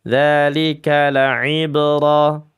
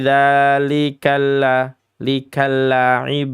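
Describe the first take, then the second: First: The L sound is short and plain. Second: The L sound is dragged and doubled. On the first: The speaker calls it right. "biasa begitu saja" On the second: The speaker calls it wrong. "kadang ada yang menyeret-nyeretnya"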